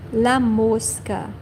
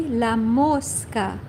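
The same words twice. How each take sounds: First: Said in the usual way. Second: La mosca said slowly, each syllable clear; slow model word, la mosca; slow careful la mosca. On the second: Shown as a demonstration. Teacher to viewers, modelling la mosca slowly. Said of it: "very easy".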